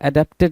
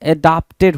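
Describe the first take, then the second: First: The middle syllable sounds like 'dep'. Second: The middle syllable sounds like 'dap'. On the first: The speaker calls it wrong. "एडेप्टेड नहीं होता है" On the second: The speaker calls it right. "एडाप्टेड होता है"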